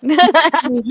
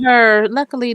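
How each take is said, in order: First: Drawn out through a laugh; slow, amused, a little louder. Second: Said in the usual way. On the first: Real, not acted. Laughing after a lucky outcome.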